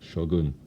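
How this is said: Shogun is said with a Japanese pronunciation. The speaker calls it right.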